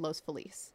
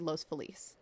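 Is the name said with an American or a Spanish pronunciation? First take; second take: Spanish; Spanish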